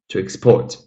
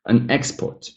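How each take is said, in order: First: "export" as a verb, PORT stressed; stress on second syllable. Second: "export" as a noun, first syllable prominent; stress on first syllable. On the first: Teacher repeats the verb for students, second-syllable stress in "export". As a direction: lighter EX, stronger PORT in "export". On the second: Teacher repeats the noun for students, first-syllable stress in "export". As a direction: stress EX, lighter PORT in "export". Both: Shown as a demonstration. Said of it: "we've got that pattern followed".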